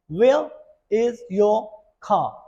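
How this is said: The R at the end of car is faint. "if you say this particular line in the British accent"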